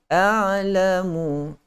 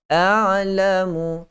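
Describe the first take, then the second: Both takes have the same delivery.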